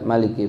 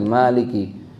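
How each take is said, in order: First: The first vowel is kept short. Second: The first vowel is drawn out long.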